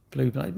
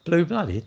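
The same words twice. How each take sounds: First: Said in the usual way. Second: Puzzled question. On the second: Real, not acted. Streamer reading a viewer's word to the chat, puzzled. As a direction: read the chat word out with surprise, higher. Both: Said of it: "chat question read out".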